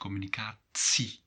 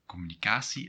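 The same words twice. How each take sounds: First: The middle consonant is a clear t sound. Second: The middle consonant is not a t sound. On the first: "with the T sound" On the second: "in the Belgian Dutch, uh, you would say"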